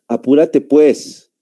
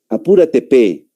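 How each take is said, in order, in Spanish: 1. La última palabra se dice completa, como 'pues'. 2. La última palabra se acorta a una 'pe'. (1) "Y nosotros, ¿cómo decimos?" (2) "Los peruanos casi siempre... ponen una P al último"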